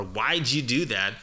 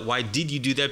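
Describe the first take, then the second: First: "Why'd you" linked as "why-dju"; slower, linked "Why'd you do that"; blended did. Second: "Why did you do that?" with "did" sounded in full; careful "Why did you do that"; unblended full form. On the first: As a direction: slowly slide "Why'd you" into one word, "whydju". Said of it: "And you won't hear the". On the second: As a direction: give "did" its own beat in "Why did you". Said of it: "because you don't talk that way". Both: Shown as a demonstration.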